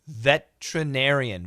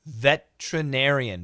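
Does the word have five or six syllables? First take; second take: five; five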